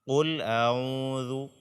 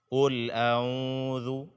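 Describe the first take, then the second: The two takes are said the same way.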